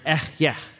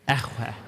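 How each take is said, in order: First: The middle consonant is a y sound. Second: The middle consonant is a w sound. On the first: This is the later form of the word. "how you say that in Hebrew is a very breathy word" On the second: This is the older form of the word. "the way great-great-grandpa would have said this is echweh"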